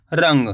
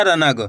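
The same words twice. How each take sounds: First: रंग as one quick syllable, n only half-sounded in the nose; nasal half-n. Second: रनग with a fully sounded na before ग; full n. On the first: Teacher showing the correct reading, रंग with a nasal half-n. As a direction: run the nasal n of रंग straight into ग. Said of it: "तेजी के साथ इसका उच्चारण निकलेगा नाक से". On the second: Teacher showing learners the mistake, रनग with a full na. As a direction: say रनग as ra-nag, two separate syllables. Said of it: "आपको इस तरीके से नहीं पढ़ना". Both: Shown as a demonstration.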